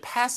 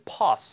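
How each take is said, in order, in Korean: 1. 짧고 평평한 미국식 모음으로 발음합니다. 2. 길고 열린 영국식 모음으로 발음합니다. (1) "영국식 발음을 이제 pass 하지 않고" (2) "이제 pass 이렇게 발음을 하고요"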